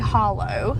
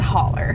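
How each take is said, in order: First: The word ends with an 'oh' sound. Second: The word ends with an 'er' sound. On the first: This is how other regions say it. "as known in other parts of the country" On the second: This is how the local people say it. "our pronunciation is different. As holler"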